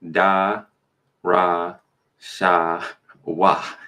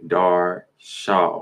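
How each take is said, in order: First: It is said slowly in four separate syllables. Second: It is said quickly, shortened to two syllables. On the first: "which is longer" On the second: "shorten it up"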